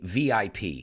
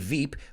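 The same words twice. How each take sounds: First: The letters are said with English letter names. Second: The letters are said with Spanish letter names. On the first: The speaker calls it right. "we say V I P" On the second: The speaker calls it wrong. "we don't say V I P"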